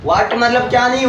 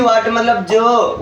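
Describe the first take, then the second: First: Said in the usual way. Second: जो drawn out slow and falling; जो said slow with a falling end; stress on जो. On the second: Shown as a demonstration. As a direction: lean slowly on जो.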